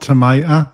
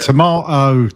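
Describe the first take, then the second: First: Tomato is said with an American pronunciation. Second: Tomato is said with a British pronunciation. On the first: The speaker calls it wrong. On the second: The speaker calls it right.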